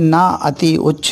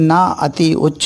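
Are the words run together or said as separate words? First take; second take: separate; separate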